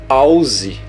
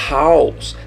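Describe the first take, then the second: First: It begins with a strong, rough R sound. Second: It begins with a soft, breathy H sound. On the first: The speaker calls it wrong. "Você não vai falar house" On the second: The speaker calls it right. "Tem o som de R fraco"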